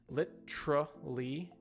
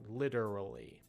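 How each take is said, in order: First: The word is said with four syllables. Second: The word is said with three syllables. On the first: "literally with four sounds" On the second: "literally with three sounds"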